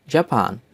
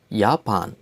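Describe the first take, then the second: First: Said in the usual way. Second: "Japan" in German, as YAH-pahn; German-style "Japan", opening with 'yah'; German pronunciation. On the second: Shown as a demonstration. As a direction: say "Japan" with a y sound for the j. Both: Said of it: "names of countries with German accent".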